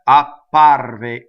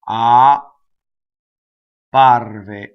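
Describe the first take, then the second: First: It is said quickly with a short gap. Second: It is said slowly with an exaggerated gap. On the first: "when I say it fast" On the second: "I did it in slow motion, very exaggerated"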